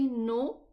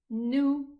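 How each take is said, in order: First: The vowel sounds like an 'o'. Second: The vowel sounds like a 'u'. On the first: The speaker calls it wrong. "don't say no" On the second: The speaker calls it right. "it's nu"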